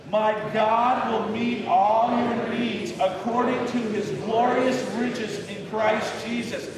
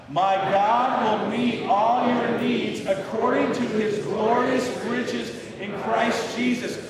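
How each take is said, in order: First: Rally the congregation through the verse; with some enthusiasm. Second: Believing it more. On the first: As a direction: read aloud slowly with a lift of enthusiasm. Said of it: "read it out with some enthusiasm". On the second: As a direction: proclaim it like you truly believe it. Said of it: "let's try and believe it a little bit more". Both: Shown as a demonstration.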